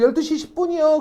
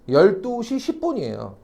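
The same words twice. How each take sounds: First: High, eager chorus reply, lightly voiced; crowd answering in chorus. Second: Said in the usual way. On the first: Tour group answering the guide, in an eager high chorus. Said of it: "그래서 다들". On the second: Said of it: "해시계상 몇 시라고요?".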